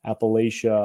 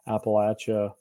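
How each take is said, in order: First: Appalachia with a long-a LAY in the middle; northern pronunciation. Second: Appalachia with a short-a LATCH in the middle; southern pronunciation. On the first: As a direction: say Appalachia as "app-uh-LAY-shuh". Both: Shown as a demonstration. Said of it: "people get really upset about how that's said".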